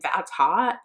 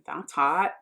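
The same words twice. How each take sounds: First: It is said with sincere enthusiasm. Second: It is said in an insincere, detached way. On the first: It is genuinely meant as praise. "it didn't really ever sound sincere, like that's hot, like that's awesome" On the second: It is not genuinely meant. "It was more like that's hot, ... I just never took it as sincere"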